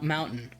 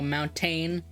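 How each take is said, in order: First: The T sound in the middle is dropped. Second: The T sound in the middle is pronounced. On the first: This is how people say it where the speaker is from. "we don't say the T" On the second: This is how people say it in other places. "in other places they go"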